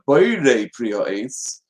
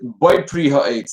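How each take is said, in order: First: The first word is said in full. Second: The first word is slurred and shortened. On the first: The speaker calls it right. "instead of" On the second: The speaker calls it wrong. "if one slurs the words"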